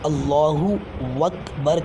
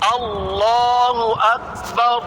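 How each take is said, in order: First: A 'w' sound is added before 'akbar'. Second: No 'w' sound comes before 'akbar'. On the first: The speaker calls it wrong. "अल्लाहु के बाद वाव लफ्ज़ वाव को बढ़ा देते हैं। तो ये गलती नहीं कीजिएगा" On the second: The speaker calls it right. "जो लिखा है उसे ही पढ़िएगा"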